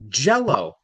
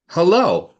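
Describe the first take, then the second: First: "Jell-O" with the "Jell" punched; stress on first syllable. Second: "hello" with a high, loud second syllable; stress on second syllable. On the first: Teacher shows an accent, "Jell-O" stressed on "Jell". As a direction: hit "Jell" in "Jell-O" and let "O" drop. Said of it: "The emphasis is on the first syllable". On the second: Teacher shows an accent, "hello" stressed on "lo". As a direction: punch the "lo" in "hello", pitched up. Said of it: "the accent is on the low". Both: Shown as a demonstration.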